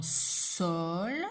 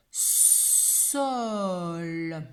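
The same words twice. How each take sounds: First: Said in the usual way. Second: "Sol" slow, long s and held l; sounding out. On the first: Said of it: "Dans sol". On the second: Shown as a demonstration. Teacher shows three sounds to pupil, "Sol" stretched slowly. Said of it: "il y a également trois sons".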